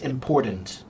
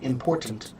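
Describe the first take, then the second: First: The middle T is swallowed or dropped. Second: The middle T is clearly pronounced. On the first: The speaker calls it wrong. "They're just using a lazy mouth" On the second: The speaker calls it right. "If you enunciate, then the T is very clear"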